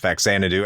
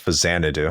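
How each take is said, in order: First: The middle consonant is a 'ks' sound. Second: The middle consonant is a 'z' sound. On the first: The speaker calls it wrong. "as many ignorant retro gamers pronounce as" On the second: The speaker calls it right. "No, it's Fazanadu"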